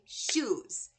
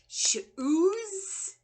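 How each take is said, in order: First: The word is said in one beat. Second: The word is stretched into two beats. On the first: The speaker calls it right. "We say shoes, one syllable" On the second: The speaker calls it wrong. "I don't say shoes. We don't talk like that"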